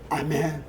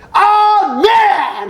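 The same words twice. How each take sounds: First: It is said weakly, without force. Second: It is said forcefully, with strong energy.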